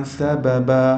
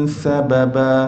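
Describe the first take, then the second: No difference in how they are said.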